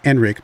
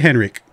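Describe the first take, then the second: First: The name starts without an H sound. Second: The name starts with a clear H sound. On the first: "How dare you make it silent if it is in fact silent?" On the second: "The H is there"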